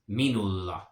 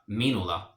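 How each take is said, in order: First: The L sound is held longer. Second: The L sound is short. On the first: The speaker calls it right. "How I extend that L sound just a little bit" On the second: The speaker calls it wrong. "that L is not minulla"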